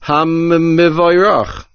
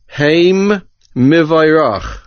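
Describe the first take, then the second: First: The mem is doubled within one word. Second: It is split into two separate words. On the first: It refers to the blessed one. The speaker calls it right. "doubling and strengthening the mem, implementing the din of dagesh chazak" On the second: It says that they are blessed. The speaker calls it wrong. "accidentally divide this word into two words"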